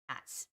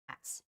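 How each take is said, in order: Both takes have the same delivery.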